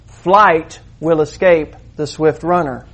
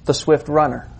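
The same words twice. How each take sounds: First: Slow, deliberate. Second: Said in the usual way. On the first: Shown as a demonstration. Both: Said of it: "Literally, this is what it means".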